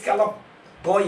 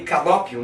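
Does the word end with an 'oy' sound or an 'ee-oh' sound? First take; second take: oy; ee-oh. First: The word ends with an 'oy' sound. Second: The word ends with an 'ee-oh' sound. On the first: "esse kalopoi aí" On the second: "lê calópio, pronuncia calópio"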